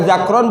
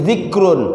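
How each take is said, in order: First: The first vowel is an a sound. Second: The first vowel is an i sound. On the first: The speaker calls it wrong. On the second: The speaker calls it right.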